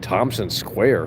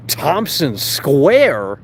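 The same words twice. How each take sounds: First: Said in the usual way. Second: High, slow, loud incredulous question; drawn-out disbelief. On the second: Real, not acted. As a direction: stretch the name out in disbelief. Repeats the name in disbelief.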